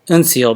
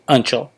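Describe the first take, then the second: First: The middle consonant is an 's' sound. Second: The middle consonant is a 'ch' sound. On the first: The speaker calls it wrong. "I always used to think it was Unseal" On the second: The speaker calls it right. "but it's actually Unchel"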